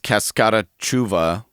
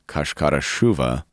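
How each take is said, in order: First: The name is said with an English pronunciation. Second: The name is said with a Portuguese pronunciation. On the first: "it's a bit English pronunciation. You would say" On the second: "we've learned in Portuguese it's"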